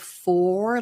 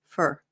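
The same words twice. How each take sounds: First: The vowel is full, like the number four. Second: The vowel is reduced, sounding like fur. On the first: "instead of for, like the number four" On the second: "Americans tend to use the reduced form"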